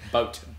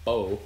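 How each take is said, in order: First: The final T sound is clearly pronounced. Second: The final T sound is left off. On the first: The speaker calls it right. "B O A T" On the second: The speaker calls it wrong. "not bow"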